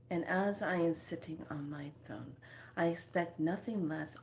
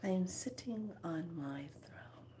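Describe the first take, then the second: First: Said in the usual way. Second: Soft breathy whisper to herself. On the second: Shown as a demonstration. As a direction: whisper it like a secret vow. Imagining herself on a throne.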